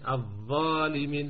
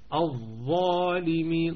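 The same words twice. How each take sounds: First: The first syllable is pronounced light, not fully emphatic. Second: The first syllable is pronounced heavy and fully emphatic. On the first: The speaker calls it wrong. "لا نقول مثلا الظالمين" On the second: The speaker calls it right. "أعلى مراتب التفخيم أقول الظالمين"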